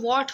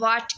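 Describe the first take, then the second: First: The first sound has rounded lips. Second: The first sound has unrounded lips. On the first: The speaker calls it right. "We need टू round our lips" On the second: The speaker calls it wrong. "Pakistan में किस तरह होती है कि लोग वाट कहते हैं"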